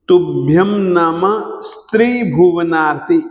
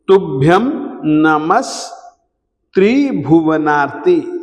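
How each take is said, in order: First: The s sound is joined to the following syllable. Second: The s sound is joined to the preceding word. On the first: The speaker calls it wrong. "ऐसा कभी भी न बोलें।" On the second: The speaker calls it right. "इस स को इधर ही बोलें"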